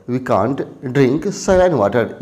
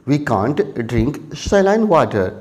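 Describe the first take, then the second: The two takes are said the same way.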